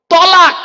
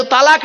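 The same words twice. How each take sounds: First: "তলাক" as taw-laak, loud and high; corrected heavy t. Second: "তালাক" with open a in the first syllable; common mispronunciation. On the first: Preacher giving the correct word, loud rounded "তলাক". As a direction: hammer out "তলাক" with a rounded first vowel. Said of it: "শব্দটা হলো". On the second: Preacher correcting couples' word, open-a "তালাক". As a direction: say "তালাক" as taa-laak. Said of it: "শব্দটা কিন্তু তালাক নয়". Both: Shown as a demonstration.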